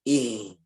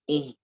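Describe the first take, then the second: First: The sound is pushed down into the chest. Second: The sound is pushed through the nose. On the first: "masuk ke dada" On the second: "masuk hidung"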